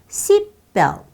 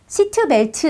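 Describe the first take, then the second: First: The middle t is soft and barely heard. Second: The middle t is clearly released. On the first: The speaker calls it right. "연하게 부드럽게 처리해서" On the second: The speaker calls it wrong. "이러지 않는 거예요"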